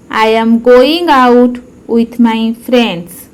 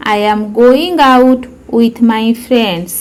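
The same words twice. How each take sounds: First: Slowed down for learners to copy; careful slow teacher repetition; slow model repeat. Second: Said in the usual way. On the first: Shown as a demonstration. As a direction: say it again slowly and clearly. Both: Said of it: "repeat-after-me demo".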